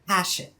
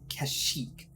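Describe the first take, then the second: First: The name gets its older, pre-film pronunciation. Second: The name gets its official, canonical pronunciation. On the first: This is how fans said it before the film. "you grew up before episode three came out calling it Kashyyyk" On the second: This is how the game says it. "the canonic pronunciation of Kashyyyk"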